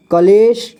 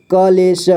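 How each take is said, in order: First: Said in the usual way. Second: कलेश split as क, ले, श; syllable by syllable. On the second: Shown as a demonstration. Teacher showing learners कलेश, sounded out in parts. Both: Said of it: "इसे पढ़ेंगे".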